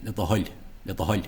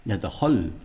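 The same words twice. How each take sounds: First: "Hull" ending in a light palatal l; slender L. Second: "Hull" ending in a broad, non-palatal L; missing slender L. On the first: Teacher giving the correction, slender-ended "Hull". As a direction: close "Hull" on a slender Irish L. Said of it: "the slender L at the end". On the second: Teacher copying his error, broad-ended "Hull". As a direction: mimic a broad L closing "Hull". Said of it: "he doesn't get the slender L". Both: Shown as a demonstration.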